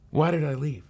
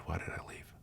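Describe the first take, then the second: First: The question flung out higher, pained; anguished cry. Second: Whispered, breaking under the question; despairing whisper. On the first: Runaway girl to herself, pained higher cry. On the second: Runaway girl to herself, a despairing whisper. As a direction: hush it almost to nothing, lost. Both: Acted.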